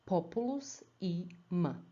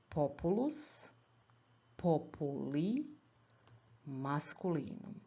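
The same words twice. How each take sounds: First: "populus i m" with the endings as bare sounds; shorter dictionary form. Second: "Populus, populi, masculinum" slowly as three complete words; drawn-out model reading, pausing between full words; each part in full. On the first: Teacher reading the last example, abbreviated dictionary form. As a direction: read "i" and "m" as separate short items. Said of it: "dictionary form of the nouns is shorter". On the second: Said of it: "each part as a full word". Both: Shown as a demonstration.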